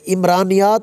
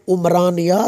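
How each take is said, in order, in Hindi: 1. शब्द स्वर 'i' से शुरू होता है। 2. शब्द स्वर 'u' से शुरू होता है। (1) "इमरानियात नहीं है" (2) "ये लफ्ज़ निकला है उमरान से"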